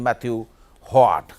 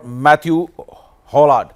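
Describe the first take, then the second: First: The L sound in the surname is dropped. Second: The L sound in the surname is pronounced.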